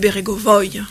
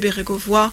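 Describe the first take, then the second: First: The name is said with a Russian-style pronunciation. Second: The name is said with a French-style pronunciation. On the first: The speaker calls it right. "mais Bérégovoy" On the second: The speaker calls it wrong. "on ne devrait pas m'appeler Bérégovoy"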